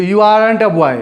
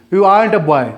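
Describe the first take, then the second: First: "aren't" slowed to aa-runt, r sounded; careful aren't. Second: "aren't" as one-beat aant, no r; fast aren't. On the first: Teacher repeats the example for learners, slow careful aren't. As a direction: stretch "aren't" into two beats with its r. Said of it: "रुक करके". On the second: Teacher gives an example sentence, fast r-less aren't. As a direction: glide through "aren't" without sounding the r. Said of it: "जब fast बोलते हैं". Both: Shown as a demonstration.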